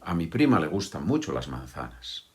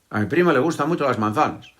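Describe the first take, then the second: First: The words flow together, linked at normal speed. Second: The words are rushed out very quickly. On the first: The speaker calls it right. "Que unimos las palabras" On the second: The speaker calls it wrong. "intentar decirlo muy rápido"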